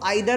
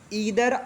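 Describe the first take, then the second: First: The first syllable sounds like 'eye'. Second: The first syllable sounds like 'ee'. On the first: "इसको आइदर और भी बोला जाता है, don't worry about this" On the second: "पहला conjunction है ईदर और"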